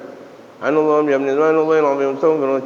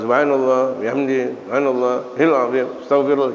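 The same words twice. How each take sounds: First: The phrase is recited quickly. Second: The phrase is recited slowly. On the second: "ya lama"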